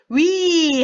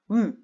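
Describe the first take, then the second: First: The vowel glides, changing quality partway through. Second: The vowel keeps one quality from start to end. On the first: The speaker calls it wrong. "위 하면은 이미 이중모음 발음이 돼버리니까 틀린 발음이 됩니다" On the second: The speaker calls it right. "처음부터 끝까지 발음이 같아야 돼요"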